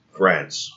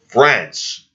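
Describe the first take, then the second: First: Said in the usual way. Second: France. said higher and louder, a falling scornful stab; emphatic repeat. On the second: Shown as a demonstration. Repeating the country he blames, France. stressed high and loud. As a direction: hit France. hard with disgust. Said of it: "It was given to us by fucking France".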